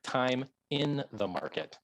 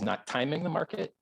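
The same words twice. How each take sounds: First: Slow "time in", with IN set apart; stress on IN. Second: "timing" said as one quick word; stress on TIMING. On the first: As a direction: spell out "time IN" slowly, leaning on "in". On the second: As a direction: stress "timing", run on into "the market". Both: Real, not acted. Contrasts timing with time in.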